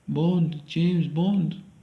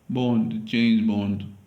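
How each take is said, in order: First: It is said in a Scottish accent. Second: It is said in a London accent. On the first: "A Scottish accent" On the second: "London accent. ... Just my accent"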